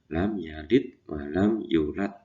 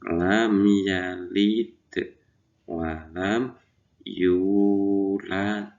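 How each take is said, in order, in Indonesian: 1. Huruf d-nya datar dan panjang pendek vokal diabaikan. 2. Huruf d-nya memantul dan panjang pendek vokal diperhatikan. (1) "Panjang pendeknya tidak diperhatikan, huruf qalqalahnya, huruf da yang disukun juga tidak diperhatikan" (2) "itu cara membacanya"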